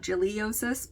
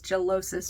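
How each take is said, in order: First: It ends in 'liosis' with an extra vowel. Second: It ends in 'losis' with no extra vowel. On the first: The speaker calls it wrong. "not giliosis" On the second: The speaker calls it right. "there's not a an extra I in it. It's gellosis"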